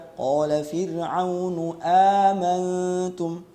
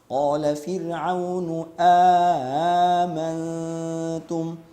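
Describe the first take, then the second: First: Amantum begins with one single glottal stop. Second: A lengthened vowel is inserted between the two hamzas. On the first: "Imam Hafs membaca" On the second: "ini adalah contoh yang keliru"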